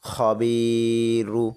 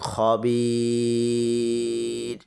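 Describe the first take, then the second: First: The middle vowel is short and ends in -ru. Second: The middle vowel is long and ends on r. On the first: The reader continues without stopping. "মধ্যে তবাই বা মধ্যে আসলি" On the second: The reader stops at this word. "র হরফটার ওপর আমরা দম ফেলার কারণে বি এখানে মধ্যে আরজি তিন আলিফ টান দিয়ে পড়ব"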